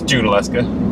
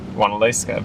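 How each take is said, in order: First: The name begins with a J sound. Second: The name begins with a W sound. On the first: The speaker calls it right. "Talked to a local yesterday, and it's it's Junaluska" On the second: The speaker calls it wrong. "I wanted to pronounce it Wanaleska"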